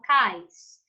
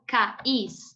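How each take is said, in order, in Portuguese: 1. A palavra é pronunciada em uma sílaba. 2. A palavra é dividida em duas sílabas. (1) "é monossílaba" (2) "Eu falo cais? Não"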